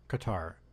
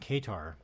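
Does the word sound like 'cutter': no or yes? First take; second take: yes; no. First: It is said in a way like 'cutter'. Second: It is said in a way unlike 'cutter'.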